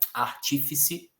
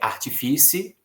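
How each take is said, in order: First: The stress is on the second syllable. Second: The stress is on the third syllable. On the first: The speaker calls it right. "a pronúncia dessas palavras, na verdade" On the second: The speaker calls it wrong. "se eu não soubesse"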